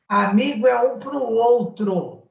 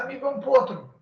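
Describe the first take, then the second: First: Each word is said separately and clearly. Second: The words are run together into one quick phrase. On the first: "lá em Minas a gente fala assim" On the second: "como você fala de festa"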